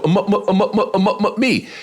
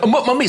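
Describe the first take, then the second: First: High, repeated blocked syllables before one word; imitated stutter. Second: Higher, shorter parody of a stammer; mocking stutter. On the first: Heckler at the back of the club, imitated stutter. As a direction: stammer over and over until the word lands. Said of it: "I hear this voice go". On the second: Comic mocking a heckler back, parody stutter. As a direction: mimic the stammer back at him, pitched up. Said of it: "I think he's messing with me".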